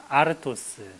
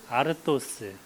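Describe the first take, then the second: Both takes have the same delivery.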